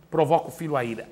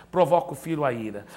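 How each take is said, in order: Both takes have the same delivery.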